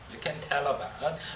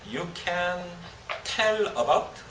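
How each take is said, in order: First: The words run together with linked sounds. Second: Each word is said separately without linking. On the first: The speaker calls it right. "이런 식으로" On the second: The speaker calls it wrong. "그렇게 하면 안 되겠죠"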